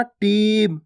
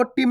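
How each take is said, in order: First: Long drawn ee in टीम; stretched long ee. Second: Short i in टीम, like टिम; wrongly short vowel. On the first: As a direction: hold the ee of टीम before the m. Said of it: "बड़ी ई की मात्रा को खींच के पढ़ना है". (टीम में ई खींचकर) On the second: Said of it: "आपको टीम नहीं पढ़ना". (टीम को छोटी इ से, बिना खींचे) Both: Shown as a demonstration.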